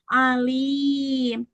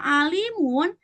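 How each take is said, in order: First: The word stops short on a closed 'm'. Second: The word ends with an added 'un' syllable. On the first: The reading stops at this word. "karena diwakofkan, maka dibacanya alim" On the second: This is the written form of the word. "walaupun tulisannya alimun"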